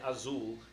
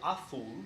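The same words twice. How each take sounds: First: The z is said as a buzzing z sound. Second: The z is said as a soft th sound. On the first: Listeners think the speaker is foolish. The speaker calls it wrong. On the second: Listeners think the speaker is attractive. The speaker calls it right. "If you say azul, they think you're sexy"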